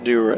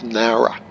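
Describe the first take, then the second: First: The first vowel sounds like 'who'. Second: The first vowel sounds like 'now'. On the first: The speaker calls it wrong. "pronouncing it like A T C say Noora Airport. It's not Noora" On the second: The speaker calls it right. "it's Nowra. How now, brown cow"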